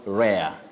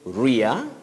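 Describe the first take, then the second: First: The vowel sounds like the vowel in 'air'. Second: The vowel sounds like the vowel in 'ear'. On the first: The speaker calls it wrong. "not rare" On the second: The speaker calls it right. "We say rear"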